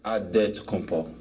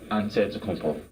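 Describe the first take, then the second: First: The name is said with a D sound. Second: The name is said with an NT sound. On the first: "you gotta say with a D" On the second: "you say with the N T"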